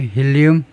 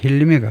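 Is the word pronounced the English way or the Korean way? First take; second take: Korean; English. First: It is said as the Korean loanword. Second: It is said with English pronunciation.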